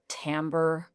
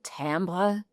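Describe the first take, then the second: First: The word is said with an American-style pronunciation. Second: The word is said with a non-American pronunciation. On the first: The speaker calls it wrong. "I'm gonna say this wrong. ... I'm just really leaning into the U S" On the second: The speaker calls it right. "It's probably like timbre or something like that"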